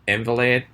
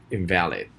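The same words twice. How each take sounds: First: Invalid said as IN-va-lid, stress on the first syllable; IN-valid stressed first. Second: Invalid said as in-VAL-id, stress on the second syllable. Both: Shown as a demonstration. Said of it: "the second one is".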